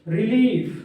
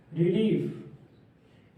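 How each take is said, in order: First: Said in the usual way. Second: relief drawn out very slowly and softer; slow dictation. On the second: Shown as a demonstration. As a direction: stretch each sound of relief for dictation. (Relief को बहुत धीरे और धीमी आवाज़ में खींचकर बोलें) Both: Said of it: "relief. (slow repeat)".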